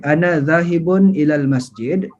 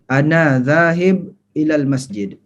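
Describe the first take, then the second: First: The words run together without pauses. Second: Each word is said separately with pauses. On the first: "sambung boleh"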